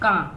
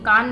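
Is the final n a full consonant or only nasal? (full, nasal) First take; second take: nasal; full. First: The vowel is only nasalized, with no n. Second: The vowel ends in a full n consonant. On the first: The speaker calls it right. "नून गुन्ना में सिर्फ नाक से बारीक आवाज आएगी" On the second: The speaker calls it wrong. "कान नहीं हम पढ़ेंगे"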